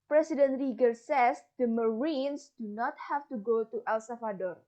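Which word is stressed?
Marines. The stress falls on the word Marines.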